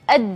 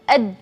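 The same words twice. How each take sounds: First: The final d is held with breath stopped. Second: The final d is held with breath stopped.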